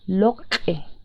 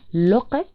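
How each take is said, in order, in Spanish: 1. La consonante tiene una liberación glotal brusca y explosiva. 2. La consonante es simple, sin aire ni explosión. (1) "Y con un explosivo sonaría" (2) "Con sonido simple sonaría"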